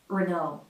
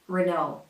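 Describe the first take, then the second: First: It is said with an American accent. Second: It is said with an American accent.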